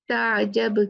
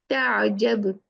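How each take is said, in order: Both takes have the same delivery.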